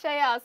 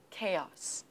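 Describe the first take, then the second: First: "Chaos" misread loudly with a ch start, "chay-os"; beginner's "Chaos" with ch as in chair; naive learner's guess. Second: "Chaos" with a hard k start, "KAY-os"; correct pronunciation. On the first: Pretend. Student tries out a beginner's reading, naive misreading. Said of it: "And if I see this word". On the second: Shown as a demonstration. Teacher models the word for syllable counting, correct pronunciation. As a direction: clear model of "Chaos", two syllables, first one stressed. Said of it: "I will pronounce it correctly for you".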